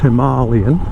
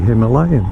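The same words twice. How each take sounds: First: It is pronounced the way people in India say it. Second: It is pronounced the way Europeans usually say it. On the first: "I have a friend who lives in India and he says it's" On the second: "us Europeans always say"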